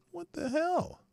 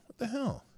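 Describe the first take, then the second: First: Very high incredulous what the hell, rising at the end; higher still, ending in a disbelieving rise; what the hell squeaked up high as a question. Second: High baffled what the hell, falling at the end; high puzzled exclamation that drops at the close; bewildered. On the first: Repeated even higher. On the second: First bewildered outburst. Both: Real, not acted.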